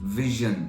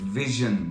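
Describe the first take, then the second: Both takes have the same delivery.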